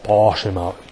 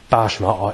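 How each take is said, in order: First: It is said in an affected accent. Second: It is said in a plain accent. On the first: "they say oh" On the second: "instead of saying"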